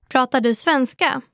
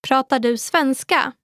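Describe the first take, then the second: The two takes are said the same way.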